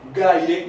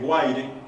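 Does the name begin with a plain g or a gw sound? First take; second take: plain g; gw. First: The name begins with a plain g sound. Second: The name begins with a gw sound. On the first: This is the original form of the name. The speaker calls it right. "como originalmente es" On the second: This is how people commonly say it now. The speaker calls it wrong. "le dicen Guaire"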